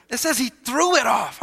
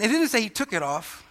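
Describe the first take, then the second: First: "threw" lifted and leaned on hard; stress on THREW. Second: Said in the usual way. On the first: Shown as a demonstration. Preacher corrects "took it off" for congregation, stress on "threw". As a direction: punch the word "threw". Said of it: "so glad the Bible says he threw it off".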